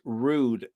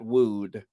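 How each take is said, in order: First: The word begins with a clear R sound. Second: The word begins with a W-like sound. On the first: The speaker calls it right. "It's rude" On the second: The speaker calls it wrong. "not wooed. / I almost said that like Barbara Walters"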